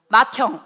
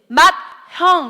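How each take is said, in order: First: The h sound merges with the consonant. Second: The h sound is kept separate from the consonant. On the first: The speaker calls it right. "이렇게 발음한다고" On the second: The speaker calls it wrong. "이렇게 하면 어렵다고"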